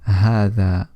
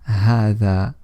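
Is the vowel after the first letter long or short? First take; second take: long; long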